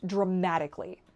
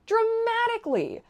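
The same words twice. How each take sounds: First: Said in the usual way. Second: DRAMATICALLY pitched very high and drawn out; emphatic repeat. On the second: Real, not acted. Vlogger underlining her improved life, DRAMATICALLY high and drawn out. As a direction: stretch DRAMATICALLY high, then let it fall.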